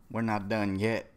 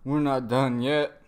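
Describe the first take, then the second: First: Said in the usual way. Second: Louder, slow, firm delivery; emphatic mock defiance. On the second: Fighter telling his rival to keep going, loud defiance. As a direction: push each word out slowly and forcefully. Repeats the quote louder and slower.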